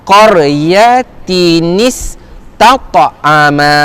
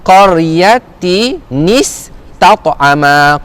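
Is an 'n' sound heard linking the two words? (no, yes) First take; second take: yes; yes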